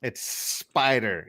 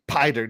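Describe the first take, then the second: First: "spider" slowed right down on a long S; drawn-out "It's Sssspider"; S pronounced. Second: "spider" without its S, as "PIE-der"; S left off. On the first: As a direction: hold the S of "spider" before the rest. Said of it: "Spider with the S being pronounced". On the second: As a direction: start "spider" straight on the P. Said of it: "You don't say spider". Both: Shown as a demonstration.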